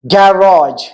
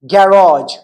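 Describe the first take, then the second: No difference in how they are said.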